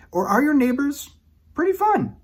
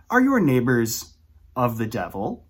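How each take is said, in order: First: Cheery, sing-song. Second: Ominous. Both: Pretend. Contrasting grim and happy neighbors.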